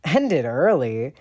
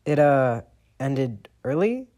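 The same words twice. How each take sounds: First: Slow, loud incredulous echo; demanding. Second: Slow, unsure rising excuse; sheepish. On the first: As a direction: throw the excuse back. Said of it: "Sirius demands". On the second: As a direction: fumble a weak excuse. James caught lying. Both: A narrator's reading.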